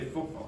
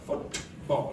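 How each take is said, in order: First: The middle t becomes a glottal stop. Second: The middle t is fully pronounced. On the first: The speaker calls it right. "They say football" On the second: The speaker calls it wrong. "You don't say football. Nobody says that"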